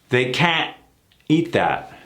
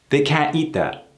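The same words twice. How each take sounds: First: The t of can't is cut off abruptly. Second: The t of can't is cut off gently.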